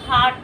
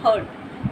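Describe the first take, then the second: First: The vowel is an open 'ah' sound. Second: The vowel is a central 'er' sound. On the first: The speaker calls it right. "हार्ट बोलना है। हार्ट" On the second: The speaker calls it wrong. "ना कि हर्ट।"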